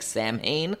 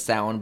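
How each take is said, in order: First: The word is pronounced the way it is spelled. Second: The word is not pronounced as it is spelled. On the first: The speaker calls it wrong. "it looks like Samhain" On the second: The speaker calls it right. "the real pronunciation is Samhain"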